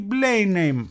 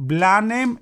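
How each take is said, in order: First: Blenheim said as "BLAY-nem", drawn out; second pronunciation option. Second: Blenheim said as "BLA-nem", drawn out; first pronunciation option. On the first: (Blenheim με «έι», σαν «Μπλέινεμ», αργά) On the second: (Blenheim με «α», σαν «Μπλάνεμ», αργά) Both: Shown as a demonstration. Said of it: "Πώς το λες εσύ".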